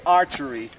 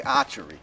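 First: Said in the usual way. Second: "archery" in a Boston accent, first r dropped. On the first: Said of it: "I can say archery". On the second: Shown as a demonstration. Camper saying it for fun, "archery" in a Boston accent. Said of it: "it's more fun to say archery".

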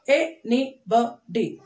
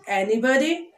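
First: ANYBODY slowly as a, ny, bo, dy; four separate beats on ANYBODY; split into syllables. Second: Said in the usual way. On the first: Shown as a demonstration. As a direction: pause between the syllables of ANYBODY. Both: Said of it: "four syllable words".

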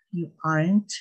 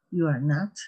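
First: "you aren't" run together as two syllables, with a light rise at the end; contraction demo. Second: "you are not" with every word said out separately; full form demo. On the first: Teacher models the short spoken form after the long one, with a light rise. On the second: Teacher models the long form for Spanish-speaking students, careful and clear. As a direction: spell out "you are not" in three clear words for the class. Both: Shown as a demonstration. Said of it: "¿cómo la pronunciación?".

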